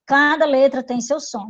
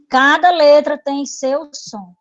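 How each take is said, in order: First: Said in the usual way. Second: "cada letra tem seu som" said slowly, each word leaned on; slow and emphatic. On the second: Shown as a demonstration. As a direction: lay the rule down slowly, word by word.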